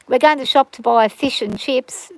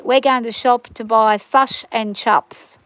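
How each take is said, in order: First: Said in the usual way. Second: Slow New Zealand accent, "fush and chops". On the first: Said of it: "but if we say". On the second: Shown as a demonstration. Australian showing how New Zealanders order takeaway, imitated New Zealand accent. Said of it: "they pronounce their I like a uh".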